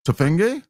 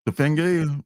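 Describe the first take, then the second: First: "Tefenge" tried out with a questioning rise; unsure pronunciation. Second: "Tefenge" said again with a firm falling close; settled pronunciation. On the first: Host sounding out the artist's name, a tentative rising "Tefenge". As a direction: test out "Tefenge" like a guess, rising at the end. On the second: Host settling on the artist's name, a falling "Tefenge". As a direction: land "Tefenge" decisively, falling. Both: Shown as a demonstration. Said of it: "correct pronunciation".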